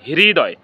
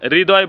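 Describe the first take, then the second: First: The word starts with an h before r. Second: The word starts with a plain r sound. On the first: The speaker calls it right. "এর সঠিক উচ্চারণ হবে হৃদয়" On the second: The speaker calls it wrong. "এটাকে আমরা সকলে হৃদয় বলি, আসলে এটা হৃদয় না"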